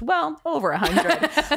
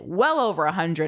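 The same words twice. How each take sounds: First: There is a pause right after 'well'. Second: The phrase flows without a pause after 'well'. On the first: 'Well' is a hesitant filler before the number. The speaker calls it wrong. "as opposed to how I read it, which was well over 100" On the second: The number is far more than a hundred. The speaker calls it right. "I think he meant it well over 100"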